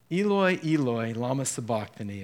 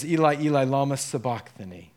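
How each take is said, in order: First: "Eloi" said as ee-loy, twice; Eloi form. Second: "Eli" said as ee-lie, twice; Eli form. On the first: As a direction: quote "Eloi" with an oy ending, ee-loy. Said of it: "it says in Mark's gospel". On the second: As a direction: quote "Eli" with a long-i ending, ee-lie. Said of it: "He says". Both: Shown as a demonstration.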